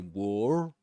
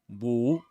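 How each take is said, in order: First: The R is pronounced, American style. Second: The R is silent, British style.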